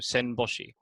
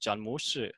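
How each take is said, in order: First: The name is read with Japanese sounds. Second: The name is read with Mandarin sounds. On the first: "the Japanese pronunciation" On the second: "modern Mandarin pronunciation"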